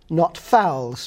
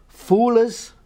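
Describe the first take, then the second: First: Said in the usual way. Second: "foolers" with a long oo vowel. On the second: Shown as a demonstration. Scholar contrasting old vowel, "foolers" with oo. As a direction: say "foolers", rounding ow into oo. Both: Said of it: "ow is going to emerge as oo".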